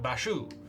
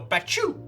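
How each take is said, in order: First: It is said softly, like a French word. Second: It is said sharply, like a sneeze. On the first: "like French, like Bashu" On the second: "when someone's sneezing, they go, Bachu!"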